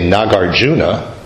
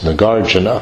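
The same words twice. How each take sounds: First: The stress is on the third syllable. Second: The stress is on the second syllable. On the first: The speaker calls it wrong. "that sounds terrible to me ... not at the third syllable" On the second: The speaker calls it right. "It ends in two short syllables, The accent is on the second syllable"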